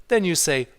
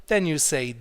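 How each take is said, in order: No difference in how they are said.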